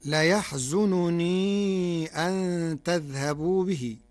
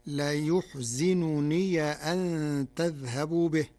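First: Slow recited ليحزنني أن تذهبوا به; Quranic recitation. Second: ليحزنني with yu-, zi and open final ya, yuhzinuniya; Warsh reading. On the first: Teacher recites the verse before the Warsh variant. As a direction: intone the verse slowly. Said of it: "قرأ ورش كلمة ليحزنني". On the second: Teacher shows the Warsh form with open ya of possession. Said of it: "بضم الياء وكسر الزاي وفتح ياء الإضافة". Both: Shown as a demonstration.

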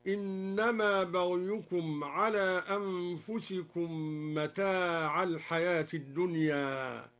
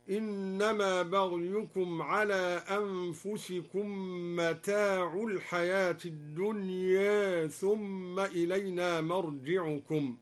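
First: Said in the usual way. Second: Slow recitation, "متاع" ending in u, mata'u; mata' with damma. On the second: Shown as a demonstration. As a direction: end "متاع" on u instead of a. (برفع "متاع" بالضمة) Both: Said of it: "برفع متاع هكذا".

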